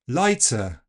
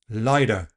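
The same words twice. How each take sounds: First: The t is released with a hissing ts sound. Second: The t is a quick tap like d. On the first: It sounds like southern English. "Affrication will give us ts" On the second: It sounds American or Australian. "Tapping the t ... like a very fast d"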